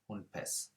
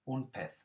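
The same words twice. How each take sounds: First: The final z sounds like s. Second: The final z sounds like th. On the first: This is how it is said in Latin America. "In Latin America... it's more of an S sound" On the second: This is how it is said in mainland Spain. "in mainland Spain... it's like a T H sound"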